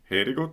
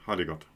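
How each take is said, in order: First: The first vowel sounds like an ä. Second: The first vowel sounds like a plain a. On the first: The speaker calls it wrong. "Man sagt nicht" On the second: The speaker calls it right. "sondern ... da ist das A ein A"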